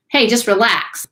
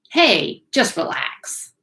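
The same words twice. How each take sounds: First: Brisk, higher-pitched "Hey, just relax"; casual urging. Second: High "Hey", then slow, hushed "just relax"; mock soothing. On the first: Pretend. Teacher mimics someone in the room telling you to relax, brisk urging. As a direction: toss it out as quick, pitched-up advice. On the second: Teacher mimics someone in the room coaxing you to relax, slow mock soothing. Repeats the advice in softer, slower manner.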